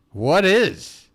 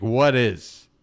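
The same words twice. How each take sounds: First: Higher, louder emphatic repeat; excited. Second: Said in the usual way. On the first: Real, not acted. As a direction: push the question up with excitement.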